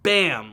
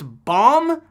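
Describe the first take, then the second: First: The vowel is the 'a' as in 'cat'. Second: The vowel is an open 'ah' sound. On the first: "but it's spelled Bam, like the sound effect" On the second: "I believe his name is pronounced Bomb"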